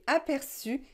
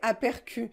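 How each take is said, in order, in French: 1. La consonne du milieu est un s doux. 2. La consonne du milieu est un k dur. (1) "Si nous voulons garder la prononciation S" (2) "si vous ne mettez pas la cédille, vous devez prononcer apercu. Mais ce n'est pas la prononciation normale"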